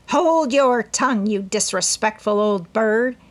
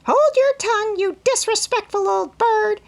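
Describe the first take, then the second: First: Higher, louder cross scolding; irritated old woman rebuke; scolding old aunt. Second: Very high, loud parrot squawk of the same words; mocking bird echo; parrot mimicry. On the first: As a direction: scold the bird sharply. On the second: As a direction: parrot it back in a screech. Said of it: "cried Polly". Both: A narrator's reading.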